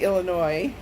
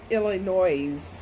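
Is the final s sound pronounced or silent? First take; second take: silent; pronounced. First: The final s sound is silent. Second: The final s sound is pronounced. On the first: The speaker calls it right. "You say" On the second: The speaker calls it wrong. "you don't say"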